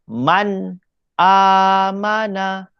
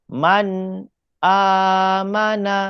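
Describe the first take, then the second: Both takes have the same delivery.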